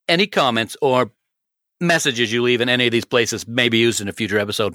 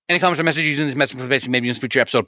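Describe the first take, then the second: First: It is said more slowly. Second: It is said very fast.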